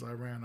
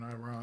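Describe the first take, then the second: First: Quieter "Iran", last syllable like "ran"; Iran ending in "ran". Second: Quieter "Iran", last syllable rhyming with "on"; Iran ending in "rahn". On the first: Host wondering which is right, "Iran" said eye-RAN. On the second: Host comparing both ways, "Iran" said eye-RAHN. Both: Shown as a demonstration. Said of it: "which one's Iran, Iran".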